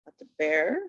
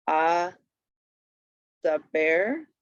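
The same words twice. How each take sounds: First: Said in the usual way. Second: "a", then "the bear", spaced as a-da-ber; syllable by syllable. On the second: Shown as a demonstration. Teacher reading an accent example, "a the bear" broken up. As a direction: sound out "a the bear" with gaps, rising last. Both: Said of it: "read the accent".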